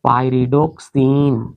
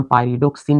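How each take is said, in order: First: pyridoxine drawn out syllable by syllable; teacher slowly sounding out pyridoxine. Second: Said in the usual way. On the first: Shown as a demonstration. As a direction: stretch pyridoxine slowly, lengthening the final सिन. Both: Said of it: "ध्यान से इसका नाम अगर हम लोग निकालेंगे".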